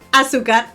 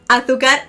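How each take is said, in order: First: It is said in a South American accent. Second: It is said in a Spain Spanish accent. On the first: "South America" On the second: "in Spain"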